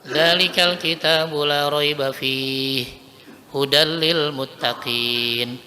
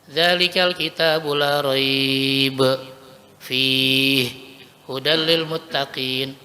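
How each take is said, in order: First: There is a pause after fihi only. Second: There are pauses after both raiba and fihi.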